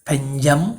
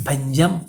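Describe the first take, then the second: Both takes have the same delivery.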